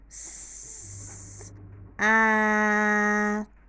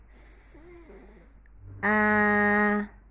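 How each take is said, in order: Both takes have the same delivery.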